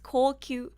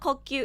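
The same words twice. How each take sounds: First: The vowels are said long. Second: The vowels are said short. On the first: It is the title as it should be. The speaker calls it right. "there's supposed to be a U" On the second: It sounds like the word for breathing. The speaker calls it wrong. "It's not Kokyu"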